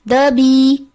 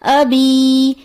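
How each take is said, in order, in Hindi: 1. अंतिम स्वर जल्दी में छोटा कर दिया जाता है। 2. अंतिम स्वर को पूरी लंबाई तक खींचा जाता है। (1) "पढ़ दिया जाता है रवानी में ... जो कि दुरुस्त अदायगी नहीं" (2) "दुरुस्त अदायगी है ... एक अलिफ के बराबर खींचा जाएगा"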